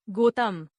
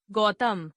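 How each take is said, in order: First: गौतम with "o" for "au"; mispronounced. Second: Said in the usual way. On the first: Shown as a demonstration. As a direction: say गौतम as "gotam". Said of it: "अशुद्ध". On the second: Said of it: "शुद्ध".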